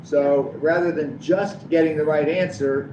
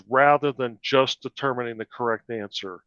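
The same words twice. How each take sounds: First: "just" leaned on, the whole line read slowly; slow reading that hangs on the word "just"; stress on just. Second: Reading it with the weight on "correct answer", "just" passing lightly; stress on correct. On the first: Ed rereading the statement for the board, slow, stressing just. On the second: Reading the statement aloud to the board, stressing correct answer. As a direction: lean on "correct answer" as the point. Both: Shown as a demonstration. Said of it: "I put the emphasis on just".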